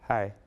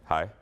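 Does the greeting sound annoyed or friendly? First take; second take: friendly; annoyed. First: A plain, friendly greeting in his own voice. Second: An annoyed, reluctant greeting imitating Bull.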